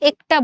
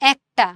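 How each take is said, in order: First: The first vowel sounds like 'e' in 'bed'. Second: The first vowel sounds like 'a' in 'cat'. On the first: The speaker calls it wrong. "আমরা একটা বলি না" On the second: The speaker calls it right. "এর উচ্চারণ এর মতো হয় নাই, এর মতো হয়েছে"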